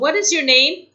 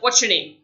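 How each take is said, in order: First: Each word is said separately and fully. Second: The words are said faster and run together.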